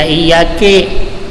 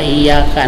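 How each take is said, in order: First: The word ends with an 'i' vowel. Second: The word ends with an 'a' vowel. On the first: The speaker calls it wrong. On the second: The speaker calls it right.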